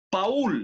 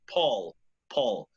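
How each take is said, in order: First: Paul as two vowels, "pa-ul"; Spanish pronunciation. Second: Paul with one O vowel. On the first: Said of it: "You spell it the same as in Spanish". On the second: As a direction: say Paul as "pol". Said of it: "A con U". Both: Shown as a demonstration.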